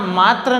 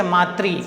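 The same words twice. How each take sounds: First: मात्र read as "maatra", ending in ra; mistaken reading. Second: मातृ read as "maatri", ending in ri; corrected reading. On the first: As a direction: say मात्र with a final "tra", no ri. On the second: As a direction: say मातृ with a clear final "tri". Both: Shown as a demonstration. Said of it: "यहाँ मात्र नहीं पढ़ते".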